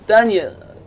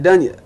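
First: Slow, lingering "Dunya" savoured like a crush; mock swooning "Dunya"; drawn-out name. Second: Said in the usual way. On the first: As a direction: stretch out "Dunya" lovingly. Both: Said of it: "I love the way you say my name".

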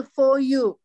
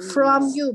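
First: For said slowly with no r cluster and no m; the wrong for you. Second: From said very slowly with a clear fr and m; clear from you. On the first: Teacher shows for you as the wrong version. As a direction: say for you as the mistake to avoid. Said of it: "不是for you". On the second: Teacher slowly contrasts from you with for you. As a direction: stretch from you out, stressing from. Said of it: "是从你那来". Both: Shown as a demonstration.

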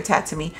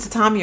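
First: "tatami" said TAT-uh-mee; pronunciation variant. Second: "tatami" said ta-TAH-mee; pronunciation variant. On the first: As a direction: stress the first syllable of "tatami", short flat a. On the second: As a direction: stress the middle of "tatami", with an open ah. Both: Shown as a demonstration. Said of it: "I don't know if it's tatami or tatami".

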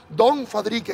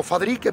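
First: DON drawn out slowly before Fadrique; stress on DON. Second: Said in the usual way. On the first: Shown as a demonstration. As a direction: correct yourself with a slow, emphatic DON. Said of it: "que se me había olvidado". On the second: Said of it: "perdón, don Fadrique".

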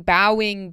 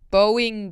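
First: Bowing said as "bow-ing", OW as in cow; bowing like bowing your head, "bow"; bowing with the OW of now; rhymes with cow. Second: Bowing said as "boh-ing", long O; Bowing like bowing a violin, "boh"; rhymes with going. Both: Shown as a demonstration. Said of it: "banjo tuners".

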